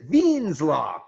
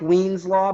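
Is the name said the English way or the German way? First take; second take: German; English. First: The name is said with German pronunciation. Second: The name is read as English spelling suggests. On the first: The speaker calls it right. "Germans pronounce it" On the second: The speaker calls it wrong. "it looks like"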